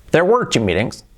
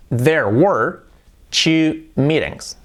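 First: Said in the usual way. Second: Slow, careful teacher model; slow model sentence. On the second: Shown as a demonstration. Teacher models the English line, slow and careful. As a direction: say it slowly so they can copy. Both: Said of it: "¿Cómo sería "hubo dos reuniones"?".

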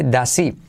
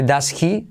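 First: "does he" linked as "dasi", H dropped, slow; does he without H. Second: "does he" said with a full H sound. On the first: Teacher shows the right form, "does he" as "dasi". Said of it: "se dice does he". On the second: Teacher shows the wrong form, "does he" with H. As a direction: pronounce "does he" keeping the H. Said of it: "En vez de does he". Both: Shown as a demonstration.

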